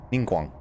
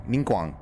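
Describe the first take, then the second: No difference in how they are said.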